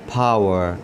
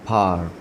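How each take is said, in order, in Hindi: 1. यह अमेरिकन लहजे में बोला गया है। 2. यह ब्रिटिश लहजे में बोला गया है। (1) "जो अमेरिकन्स हैं वो फावर" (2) "जो ब्रिटिश हैं वो इसको फार पढ़ते हैं"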